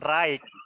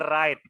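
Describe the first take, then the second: First: A g sound is pronounced in the word. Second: No g sound is pronounced in the word. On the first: The speaker calls it wrong. "Bukan right" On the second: The speaker calls it right. "tapi right. Jadi huruf G-nya itu nggak dibaca juga"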